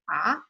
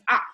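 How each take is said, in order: First: The pitch rises like a question. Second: The pitch falls sharply from high. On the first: "Second one is like what" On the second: "like you're feeling hurt, painful"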